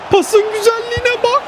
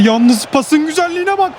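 First: Much higher, rising with delight on bak; excited. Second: Said in the usual way. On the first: Real, not acted. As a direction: gush over the pass, voice leaping up. Admiring the pass.

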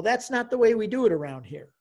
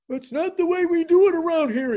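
First: Measured, lightly put-out objection; mild retold rebuff. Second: High, loud exasperated priest; mock exasperation. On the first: Priest to eager new convert, mild rebuff. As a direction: imitate a priest gently putting someone off. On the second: Priest pestered by eager convert, exasperated mock outburst. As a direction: imitate someone driven crazy, voice pushed way up. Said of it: "I drove the poor man crazy".

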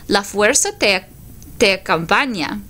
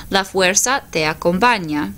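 First: A hint of a wise old alien master, unhurried; just a touch of Yoda, calm and knowing; lightly voiced Yoda. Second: Said in the usual way. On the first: Teacher voicing Yoda in the class picture, faint wise-master voice. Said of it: "So here I have Yoda". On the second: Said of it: "So the force will accompany you".

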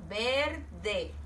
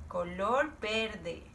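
First: Said in the usual way. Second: Slow model. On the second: Shown as a demonstration. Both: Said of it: "A ver, ¿quién me puede decir?".

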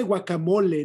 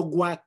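First: Said in the usual way. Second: "guac" as clipped American GWAHK; anglicized short form. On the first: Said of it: "Se dice guacamole". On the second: Shown as a demonstration. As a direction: say "guac" as English slang. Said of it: "no guac".

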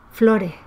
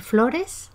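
First: "flores" with the final S dropped, like "flore". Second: Said in the usual way. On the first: Shown as a demonstration. Teacher demonstrating weakened endings, final S dropped in "flores". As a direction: let the end of "flores" fade without its S. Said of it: "pero dirá flores". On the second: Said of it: "Puede decir flores".

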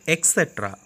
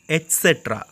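First: "et cetera" with a K sound, "ek-setra"; wrong ET CETERA. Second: "et cetera" with a clear T, "et-setra"; correct ET CETERA. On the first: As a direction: say "et cetera" starting "ek". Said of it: "Some are mispronouncing as et cetera". ("et cetera" mispronounced as "ek-setra") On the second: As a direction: sound the T in "et cetera". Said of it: "E T is there". ("et cetera" starting with a crisp "et") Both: Shown as a demonstration.

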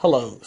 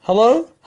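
First: Lower, settled falling hello. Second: High rising hello, louder; cheery greeting. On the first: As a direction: end it with a calm fall. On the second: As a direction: call out a friendly hello. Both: Shown as a demonstration. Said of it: "این دو تا کلمه".

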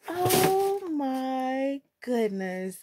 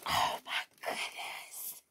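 First: Very slow, stretched-out amazement; drawn-out awe. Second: Slow, breathless whisper of amazement; awed whisper. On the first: Vlogger savouring her new shoes, slow drawn-out awe. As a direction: stretch every word in wonder. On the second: Vlogger overcome on first seeing her shoes, awed whisper. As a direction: whisper it in sheer awe. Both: Real, not acted.

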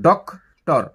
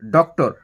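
First: "doctor" split as "ডক ... টর" with a pause; two distinct beats in "doctor"; broken into syllables. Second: Said in the usual way. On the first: Shown as a demonstration. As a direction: stop after "ডক", then say "টর" separately. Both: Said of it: "ডক বলে একবার থামছি".

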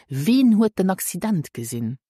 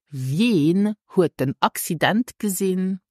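First: "Wen" as "vehn", no y-glide; native speakers' pronunciation. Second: "Wen" with a y-glide, like "vyehn"; standard pronunciation. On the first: Teacher shows what native speakers say, "Wen" without glide. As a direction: say "Wen" with one pure vowel. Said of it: "hear native speakers saying". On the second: Teacher models the question for learners, "Wen" with glide. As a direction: open the question on a gliding "Wen". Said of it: "You would say". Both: Shown as a demonstration.

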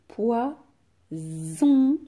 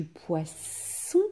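First: Poison split slowly, the s a long buzzed "zzz"; stretched Z sound. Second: Poisson with a long hissed "sss"; stretched S sound. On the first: Teacher offers pupils the trap word, Z drawn out. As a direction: break poison as "poi... zzzon". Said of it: "que j'entends Z". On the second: Teacher offers pupils the first of two words, S drawn out. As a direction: draw out poisson as "poi-sssson". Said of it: "les deux S qui sont plus forts". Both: Shown as a demonstration.

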